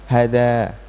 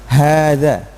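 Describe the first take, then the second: First: The first vowel is kept short. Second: The first vowel is held long. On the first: The speaker calls it wrong. "bukan hadza" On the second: The speaker calls it right. "tapi bacanya tetap panjang"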